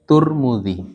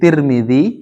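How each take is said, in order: First: The first syllable has the vowel u. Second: The first syllable has the vowel i. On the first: "bisa dibaca At-Turmudzi" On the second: "bisa dibaca At-Tirmidzi"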